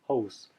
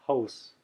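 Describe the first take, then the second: The two takes are said the same way.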